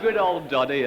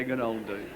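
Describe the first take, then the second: First: Said in the usual way. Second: Much softer, lower fond repeat; quiet repeat. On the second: Shown as a demonstration. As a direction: mutter it back under your breath.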